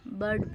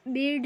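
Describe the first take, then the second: First: Said in the usual way. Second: बेड with a long e, for bird; wrong reading. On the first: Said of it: "इसको हम बर्ड पढ़ेंगे". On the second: Shown as a demonstration. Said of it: "नहीं पढ़ेंगे". (bird को "बेड" जैसा गलत पढ़कर)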